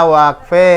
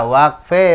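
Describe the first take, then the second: No difference in how they are said.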